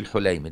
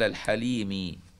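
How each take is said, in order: First: The first vowel is not an 'a' sound. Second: The first vowel is an 'a' sound. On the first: The speaker calls it wrong. "ما تقولش الحليمي" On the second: The speaker calls it right. "تفتح الحاء"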